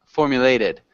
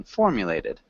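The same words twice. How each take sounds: First: Formulated with the stress on the third syllable, for-mu-LA-ted; wrong stress imitated. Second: Formulated with the stress on the first syllable, FOR-mulated. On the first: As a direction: mimic the student: stress the "la" in formulated. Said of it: "So you're emphasizing the third syllable". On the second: Shown as a demonstration. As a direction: hit the "for" in formulated hard, the rest light. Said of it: "We wanna emphasize the first one".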